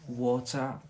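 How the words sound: It is said in a British accent. "here in Britain"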